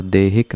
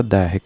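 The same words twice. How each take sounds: First: देहिक with a plain "e" in the first syllable; wrong vowel. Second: दैहिक with an open "ai" in the first syllable; correct vowel. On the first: Teacher showing the misspelt word, देहिक with an "e". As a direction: say देहिक starting "de", not "dai". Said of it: "नहीं होता". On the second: Teacher giving the correct word, दैहिक with "ai". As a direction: say दैहिक starting "dai", not "de". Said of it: "होता है". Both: Shown as a demonstration.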